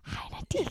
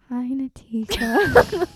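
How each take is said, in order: First: It is whispered without voice. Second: It is spoken quietly with voice.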